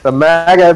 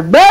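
First: Said in the usual way. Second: High, drawn-out call of "maga"; hollered catchphrase. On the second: Pretend. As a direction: holler it like a silly battle cry. Yells the nickname as a call.

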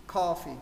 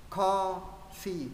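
First: Said in the usual way. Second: "Coffee" drawn out in two separate syllables. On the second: Shown as a demonstration. Teacher corrects student, splitting "Coffee" slowly. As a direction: say "Coffee" slowly as Co, then fee.

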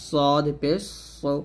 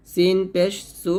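First: Thick সদ, সু rounded toward "so"; heavy S. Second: Light সিন and সু; thin S. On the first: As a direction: fill the mouth on সু. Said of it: "সদ মোটা হবে". (মোটা করে সদ, সু) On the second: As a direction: keep সু thin. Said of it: "সিন পাতলা হবে". (পাতলা করে সু) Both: Shown as a demonstration.

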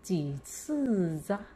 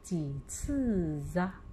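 First: 几次啊 slow, with 啊 sounding as 扎; 几次啊 read aloud. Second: 几次啊 repeated slowly, ending in 扎; slow second model reading of 几次啊; 几次啊 read again. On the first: Teacher models the example sentence for the class, slowly. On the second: Teacher repeats the example for pupils to echo, slowly. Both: Shown as a demonstration. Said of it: "我们再来读例句二".

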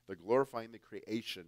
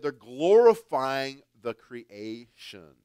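First: Said in the usual way. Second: Loud and slow, pressing on glorifying; emphatic preaching. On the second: Acted. Preacher warning the church, loud and slow. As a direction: drive the point home with force. Preacher repeats the key phrase.

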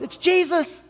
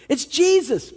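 First: Much higher, startled realization; sudden recognition. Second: Higher, wondering echo; awed repeat. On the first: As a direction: gasp out who it is. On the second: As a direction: say it again in awe. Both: Retold or imitated. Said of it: "they realize".

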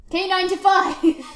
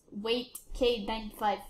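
First: High, loud burst on the code; loud exclamation. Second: Said in the usual way. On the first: Real, not acted. Gamer repeats the code K ninety-five, loud exclamation. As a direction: call it out loudly.

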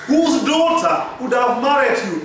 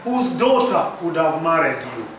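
First: "Whose daughter would have married you" pitched high as a real question; high, interrogative delivery; inquisitive intonation. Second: "whose daughter would have married you" said low, sinking to the end; low, matter-of-fact falling question; falling intonation. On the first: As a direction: ask it insistently, starting high on "Whose daughter". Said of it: "Because this is inquisitive. This is interrogative". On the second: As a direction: let the pitch fall through "married you". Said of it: "you cannot fall and say". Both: Shown as a demonstration.

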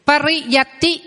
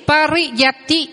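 First: Said in the usual way. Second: Slow Pariyati, each syllable separate; slow model word. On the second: Shown as a demonstration. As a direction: drill Pariyati slowly. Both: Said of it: "Quý vị đọc vào phần từ vựng".

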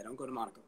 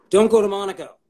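First: Said in the usual way. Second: Louder and higher, punching go; emphatic. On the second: Real, not acted. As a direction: hammer the advice home. Repeated with emphasis.

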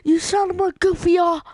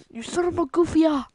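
First: High, loud mock yell; mock insult yell. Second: Repeated mock yell. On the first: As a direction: bellow it like a cartoon insult. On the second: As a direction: yell it again, less force. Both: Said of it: "He's like".

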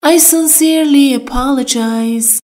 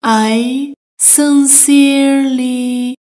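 First: Said in the usual way. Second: "I sincerely" stretched out slowly; slow it down so learners hear each sound; slow, careful. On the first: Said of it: "teacher models phrase". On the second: Shown as a demonstration. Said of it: "teacher repeats slowly". (آهسته و شمرده)

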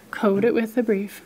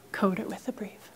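First: Said in the usual way. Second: Whispered instruction, soft and secretive. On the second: Shown as a demonstration. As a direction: drop to a hush for the rule. Teacher whispers instruction in demo.

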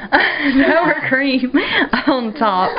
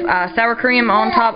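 First: Laughing mid-correction, pitched up. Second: Said in the usual way. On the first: Real, not acted. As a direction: giggle through the words. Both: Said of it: "Almost said Cool Whip".

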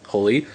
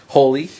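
First: Said in the usual way. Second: Louder, higher call of the name; a raised, rising call. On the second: Real, not acted. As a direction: call Holy again, louder and up. Calling to someone named Holy.

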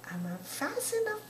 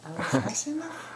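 First: High-pitched mock question; high teasing repeat. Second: Said in the usual way. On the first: Real, not acted. Teasing baby, higher repeat.

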